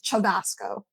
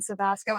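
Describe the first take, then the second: First: The name begins with a ch sound. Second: The name begins with an s sound. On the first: This is the original Italian pronunciation. "technically in Italian, it's" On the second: This is the family's usual pronunciation in English. "it's always been Savasco"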